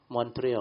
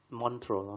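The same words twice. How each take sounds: First: "Montreal" with the ending opened to "-tree-o"; corrected pronunciation. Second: "Montreal" in two syllables, ending "-trol"; trying a pronunciation. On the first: Speaker working out how to pronounce the city, corrected pronunciation. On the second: Speaker unsure of the Olympic city's name, trying a pronunciation. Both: Shown as a demonstration. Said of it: "How to pronounce Montreal?".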